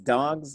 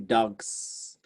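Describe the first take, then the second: First: The word ends with a buzzing z sound. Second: The word ends with a hissing s sound. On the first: The speaker calls it right. "the way it actually sounds" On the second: The speaker calls it wrong. "it sounds like uh, docks if, if you do that"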